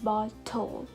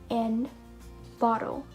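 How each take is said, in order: First: The middle t is a clear t sound. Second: The middle t is a quick d-like flap. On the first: The speaker calls it wrong. "instead of settle and bottle" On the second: The speaker calls it right. "we are going to pronounce it as D as well"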